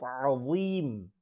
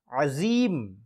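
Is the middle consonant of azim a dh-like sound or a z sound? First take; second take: dh sound; z sound. First: The middle consonant is a heavy dh-like sound. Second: The middle consonant is a plain z sound. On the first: The speaker calls it right. "instead of saying it dha" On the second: The speaker calls it wrong. "a za instead of a dha"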